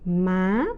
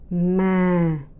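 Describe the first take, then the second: First: The pitch rises sharply to a high level. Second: The pitch starts low and falls gently. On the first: "sharp, high rising tone" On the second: "the deep, the low falling tones"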